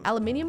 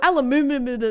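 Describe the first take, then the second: First: It is said in the speaker's own non-American way. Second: It is said imitating an American accent.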